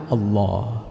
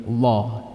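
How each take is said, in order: Both takes have the same delivery.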